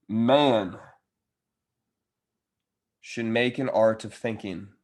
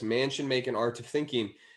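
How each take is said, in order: First: It is read very slowly. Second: It is read at a normal pace.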